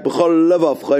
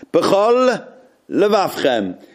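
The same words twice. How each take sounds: First: B'chol levavcha blurred into one word, the two l sounds merged; b'chol levavcha, let the lamets melt together; words run together. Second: B'chol levavchem slowly, the l at the end of b'chol and the l of levavchem kept apart; b'chol... levavchem, a clear break between the two l sounds; separated lamets. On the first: Teacher showing the wrong merged b'chol levavcha. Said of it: "shouldn't sound like b'chol levavcha in one word". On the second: Teacher showing careful b'chol levavchem with separate lamets. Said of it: "make sure that the lamets are separate".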